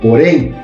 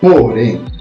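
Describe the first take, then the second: First: The stress is on the last syllable. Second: The stress is on the first syllable. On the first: The speaker calls it right. "Falo porém. Então, porém é a sílaba forte" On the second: The speaker calls it wrong. "Eu não falo porém"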